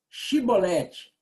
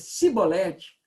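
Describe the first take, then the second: First: The word begins with a 'sh' sound. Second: The word begins with a plain 's' sound. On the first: The speaker calls it right. "aí tinha que pronunciar aquele, aquele C H ou o S H" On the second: The speaker calls it wrong. "não podendo exprimir bem a palavra"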